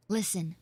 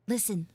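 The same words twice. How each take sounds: The two takes are said the same way.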